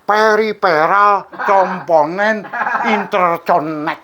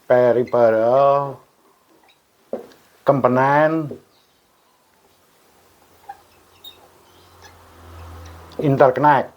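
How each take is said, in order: First: It is said with an Indonesian-style pronunciation. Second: It is said with an English-style pronunciation.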